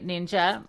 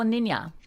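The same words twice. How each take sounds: First: The j is said as an English j. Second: The j is said as a soft y.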